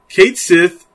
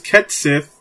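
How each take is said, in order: First: The first word has a long 'ay' vowel. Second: The first word has a short 'eh' vowel.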